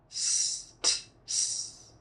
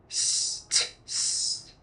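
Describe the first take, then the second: No difference in how they are said.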